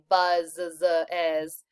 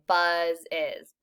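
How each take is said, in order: First: The z sound is said twice. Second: The z sound is said once. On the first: The speaker calls it wrong. "We don't say buzz is" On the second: The speaker calls it right. "you only say the Z sound once"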